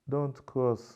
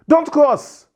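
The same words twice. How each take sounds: First: It is said quietly at a low pitch. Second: It is said loudly at a high pitch. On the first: The listener cannot even hear it. The speaker calls it wrong. "the person can't even hear me" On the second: The listener hears and reacts immediately. The speaker calls it right. "the tone of my voice became very high"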